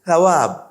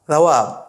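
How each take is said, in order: Both takes have the same delivery.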